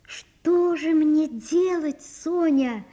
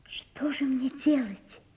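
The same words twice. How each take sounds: First: Very slow, high, aching plea; pleading lament. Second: Slow, hushed despairing whisper; helpless whisper. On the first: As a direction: draw it out in helpless longing. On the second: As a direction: ask it almost without voice. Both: A narrator's reading. Natasha helpless before Sonya.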